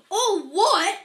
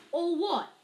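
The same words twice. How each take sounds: First: Very loud, high roar of disbelief; thundering. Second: Put-on high, raised-voice boy's question; puzzled question. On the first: Enraged giant echoing the boy's question, thundering. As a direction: thunder it back in outrage. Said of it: "Hagrid thundered". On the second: Puzzled boy asking the giant, raised pitch. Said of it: "asked Harry". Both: A narrator's reading.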